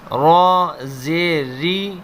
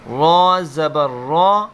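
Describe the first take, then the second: First: "را زیر ری" with a light, thin ri. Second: "را زبر را" with a full, heavy open ra. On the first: Teacher shows students the thin ri sound. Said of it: "زیر کو باریک پڑھیں گے". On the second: Teacher shows students the heavy ra sound. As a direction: say "را" thick and full-mouthed. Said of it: "اس لیے ہم اسے پر پڑھیں گے". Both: Shown as a demonstration.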